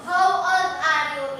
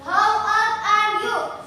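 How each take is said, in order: First: Said in the usual way. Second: Slow model question. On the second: Shown as a demonstration. Teacher to pupils, modelling the question slowly and clearly. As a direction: spell out How old are you? word by word, slowly. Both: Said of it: "Itu adalah umurnya berapa?".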